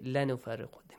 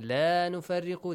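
First: The vowel of the first word is short. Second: The vowel of the first word is stretched long. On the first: We surely make a distinction. The speaker calls it wrong. "they say" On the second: We make no distinction. The speaker calls it right. "Instead of saying"

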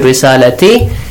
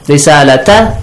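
First: The word ends with an 'i' vowel. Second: The word ends with an 'a' vowel. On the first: The speaker calls it wrong. "if we read it risalati, it completely changes the meaning" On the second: The speaker calls it right. "a word has an A"

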